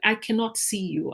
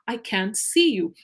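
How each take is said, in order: First: Cannot is said in full as two syllables. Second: Cannot is contracted to a single syllable. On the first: It sounds extremely formal. The speaker calls it wrong. "very formal forms of English when I shouldn't even be doing it" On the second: It sounds like everyday speech. The speaker calls it right. "the easier, simple form"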